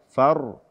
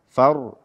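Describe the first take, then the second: No difference in how they are said.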